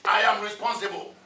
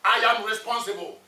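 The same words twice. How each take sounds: First: Firm, emphatic I am responsible; mean every word; said like you mean it. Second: Said in the usual way. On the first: Shown as a demonstration. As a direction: declare "I am responsible" with conviction. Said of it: "Say it like you mean it". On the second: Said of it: "Let's say it together".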